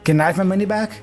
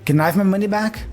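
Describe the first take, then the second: First: The first words blur into one short syllable. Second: The same.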